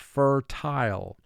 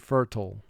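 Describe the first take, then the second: First: The second syllable is said fully, like 'tile'. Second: The second syllable is reduced and quick. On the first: It matches the spelling. "we're going to exaggerate the pronunciation somewhat to conform to spelling" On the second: It is the everyday conversational form. "in conversation, we would say fertile"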